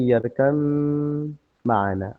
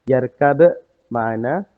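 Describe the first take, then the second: First: The b merges into the following m. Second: A distinct b is heard before the m. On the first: "yang barusan saya sebutkan adalah ya bunay yarkam ma'ana" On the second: "Asalnya yarkab ma'ana"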